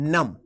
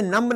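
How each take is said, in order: First: The final b is silent. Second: The final b is pronounced. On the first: The speaker calls it right. "बोलेंगे नम" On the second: The speaker calls it wrong. "आप इसे नम्ब नहीं बोलेंगे"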